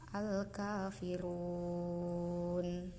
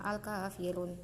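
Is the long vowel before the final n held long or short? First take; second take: long; short. First: The vowel before the final n is held long. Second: The vowel before the final n is cut short. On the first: The speaker calls it right. "bacanya panjang" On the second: The speaker calls it wrong. "jangan al kafirun"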